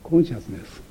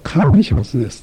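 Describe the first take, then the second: First: The first syllable has an 'o' vowel. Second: The first syllable has an open 'a' vowel. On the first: "これを英語ではコンシャスネスと言いますね。" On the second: "アメリカ英語では…初めの音がコでなくカーに近いようなものになる"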